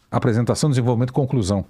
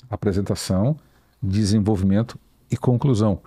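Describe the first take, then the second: First: Said in the usual way. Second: Measured three-part delivery, pausing after each point; Obama. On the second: Shown as a demonstration. Coach showing how Obama structures an answer, measured and paused. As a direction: set out each point separately, pitch settling slightly. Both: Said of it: "Porque eu é o Obama".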